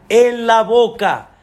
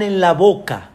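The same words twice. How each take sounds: First: "en la boca" said slower and a bit louder; slow, weighty repeat of "en la boca"; emphatic repeat. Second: Said in the usual way. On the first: Shown as a demonstration. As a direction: lean on "en la boca" the second time.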